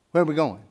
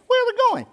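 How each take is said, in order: First: Said in the usual way. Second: Very high, loud alarmed question; shrill alarmed wife. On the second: Shown as a demonstration. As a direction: squeal it like a startled wife.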